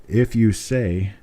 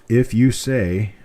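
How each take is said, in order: No difference in how they are said.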